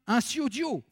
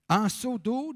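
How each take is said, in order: First: It is pronounced the rural patois way. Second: It is pronounced the standard Paris city way. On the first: "dans les patois" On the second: "En ville"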